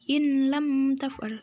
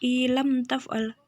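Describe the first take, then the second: First: The n sound is clearly heard before the l. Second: The n sound merges into the following l. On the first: The speaker calls it wrong. "tidak boleh dibaca in lam taf'al" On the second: The speaker calls it right. "dibaca ilam taf'al"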